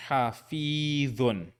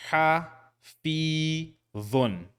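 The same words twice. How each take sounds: First: Hafidhun in one slow run; joined, slow. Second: Ha, fi, dhun with pauses between; syllable by syllable. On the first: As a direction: blend hafidhun without pauses. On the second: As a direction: split ha, fi, dhun apart. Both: Shown as a demonstration. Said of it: "without pauses this time".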